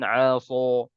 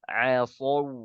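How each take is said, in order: First: The consonant is pronounced thick and heavy. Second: The consonant is pronounced thin and light. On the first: The speaker calls it wrong. "jangan aso" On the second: The speaker calls it right. "Dia tipis"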